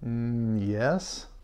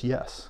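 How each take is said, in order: First: The word is said in an unsure, hesitant way. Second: The word is said in a firm, confident way. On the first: The speaker is not fully sure of the answer. "that doesn't sound as confident" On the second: The speaker is sure of the answer. "as confident as yes"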